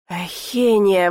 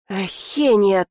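First: Slow, drawn-out groan of the name; despairing groan. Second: Short, exasperated growl of the name. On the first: Count pleading with the heroine, despairing groan. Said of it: "в отчаянии простонал он". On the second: Count cutting off the heroine, exasperated growl. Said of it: "только рыкнул он". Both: A narrator's reading.

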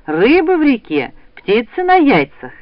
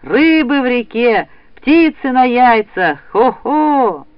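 First: Higher, louder rousing cry; calling out. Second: Slow, drawn-out cry, high and loud; loud ringing call. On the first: Mother rousing her son for the hunt, calling out. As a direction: call it out brightly to get someone up. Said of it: "крикнула она". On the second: Boy rousing the whole house, loud drawn-out call. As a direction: send it rolling through the whole house. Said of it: "раскатился его громкий голос". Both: A narrator's reading.

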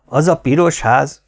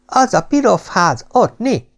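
First: Said in the usual way. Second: Put-on "pirof" with a lisped s, high little-kid voice; proud small child saying "pirof" for piros, pitched high; a toddler pointing proudly, lisping "pirof ház". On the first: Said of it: "ismételte a parancsnok". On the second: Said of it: "Büszkén kinyújtotta parányi mutató ujját".

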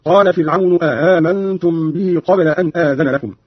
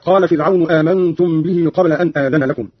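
First: آمنتم drawn out with two hamzas, the second softened. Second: Said in the usual way. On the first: Shown as a demonstration. Teacher shows Qalun's reading, آمنتم with eased second hamza. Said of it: "مع تسهيل الهمزة الثانية". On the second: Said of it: "قرأ قالون بهمزتين على الاستفهام".

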